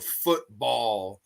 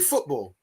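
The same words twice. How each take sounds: First: It is said in a strong American accent. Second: It is said in a British accent. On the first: The speaker is talking about American football. "with a strong American accent" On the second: The speaker is talking about English soccer. "if I'm talking about West Ham, I say football like that"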